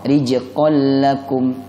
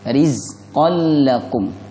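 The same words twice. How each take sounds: First: The consonant after ri sounds like j. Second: The consonant after ri sounds like z. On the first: The speaker calls it wrong. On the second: The speaker calls it right.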